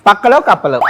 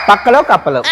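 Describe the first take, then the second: No difference in how they are said.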